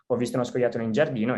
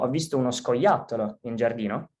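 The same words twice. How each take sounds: First: The word giardino carries the main emphasis. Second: The word scoiattolo carries the main emphasis. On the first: It was in the garden, not in the house. "in giardino e non in casa" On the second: It was a squirrel, not a cat or dog. "dando l'enfasi sulla parola"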